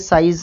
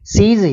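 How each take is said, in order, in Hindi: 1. स्वर 'eye' की तरह बोला जाता है। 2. स्वर 'ee' की तरह बोला जाता है। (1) "वैसे साइज नहीं होगा" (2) "ये सीज ही होगा"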